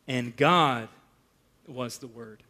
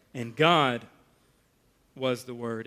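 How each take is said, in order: First: "God" first, then a soft drop on "was the Word"; hushed emphatic reading. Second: "God" leaned on, "was the Word" dropped softly; hushed emphatic reading. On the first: Preacher showing the Greek word order, quiet and deliberate. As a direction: read it slowly, leaning on "God". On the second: Preacher echoing the verse softly to drive it home. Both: Shown as a demonstration. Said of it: "The word order in the Greek here is emphatic".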